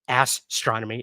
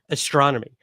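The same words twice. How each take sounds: First: The first syllable sounds like the word 'ass'. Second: The first syllable does not sound like 'ass'. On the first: The speaker calls it wrong. "That sounded like the study of the ass. It is not astronomy" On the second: The speaker calls it right. "It's astronomy"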